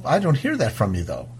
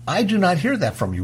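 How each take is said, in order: First: Said in the usual way. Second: "not" stressed, said high and spaced out; emphatic. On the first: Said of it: "And I go". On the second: Real, not acted. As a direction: separate "do not" and hit "not". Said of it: "restated with emphasis".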